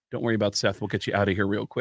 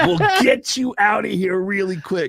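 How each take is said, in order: First: Low, quiet reassurance; lightly put-on low voice, softly brushing someone off; subdued, low-pitched retold reply; lightly voiced Mike Henry. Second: Put-on high, slow, drawn-out creepy old man; exaggerated slow, higher-pitched character voice; creepy old guy. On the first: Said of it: "who does the voice of Cleveland". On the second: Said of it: "and the creepy old guy".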